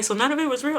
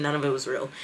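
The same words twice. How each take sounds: First: Incredulous question. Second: Said in the usual way. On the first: Retold or imitated. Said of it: "she was like". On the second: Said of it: "I said".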